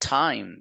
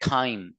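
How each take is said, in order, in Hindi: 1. t एक नरम, हवादार ध्वनि है। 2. t एक कठोर मूर्धन्य ध्वनि है। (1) "दूसरा साउंड है इसका था।" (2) "एक निकालते हैं ठा।"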